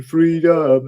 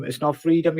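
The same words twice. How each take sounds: First: Mock battle cry. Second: Said in the usual way. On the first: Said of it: "people on the stairway was going".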